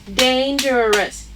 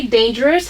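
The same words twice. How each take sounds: First: "Dangerous" slowly split into three syllables. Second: Said in the usual way. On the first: Shown as a demonstration. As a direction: count out "Dangerous" slowly, one syllable at a time. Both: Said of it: "How many syllables?".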